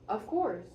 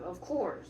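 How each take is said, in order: First: It is said in a plain reading voice. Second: It is said in an aggressive growl.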